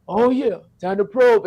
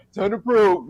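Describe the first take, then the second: First: A hint of an alien voice; lightly voiced alien, slow and drawn. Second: A hint of an alien voice; slow alien drawl on probe. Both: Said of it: "see the alien voice".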